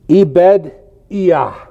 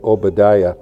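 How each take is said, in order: First: The name begins with an 'eh' sound. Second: The name begins with an 'oh' sound. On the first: This is the original Hebrew pronunciation. "that's actually how you pronounce this word" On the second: This is the customary English pronunciation. "we say"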